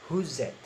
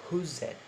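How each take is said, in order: No difference in how they are said.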